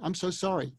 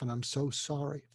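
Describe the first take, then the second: First: It sounds hurried and dismissive. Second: It sounds warm and sincere.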